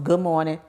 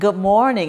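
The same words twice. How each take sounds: First: It is said flatly, without a smile. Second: It is said warmly, with a smile. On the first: The speaker calls it wrong. "it goes from" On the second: The speaker calls it right. "you have that sense of smile when you're saying"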